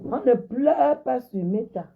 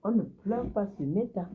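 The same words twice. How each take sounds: First: Slow, high and loud, every word hammered; "On ne pleure pas sur Meta" spelled out slowly and loudly; emphatic. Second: Said in the usual way. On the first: Real, not acted. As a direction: lay down the rule word by word.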